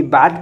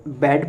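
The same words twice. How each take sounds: First: BAT read as "बाट", long aa; "बाट", vowel as in bar; expected reading. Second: BAT read as "बैट", short ae vowel; "बैट", not the aa of bar; correct reading. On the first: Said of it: "यहाँ पे ये बाट पढ़ा जाता". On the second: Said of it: "बैट पढ़ा जा रहा है". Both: Shown as a demonstration.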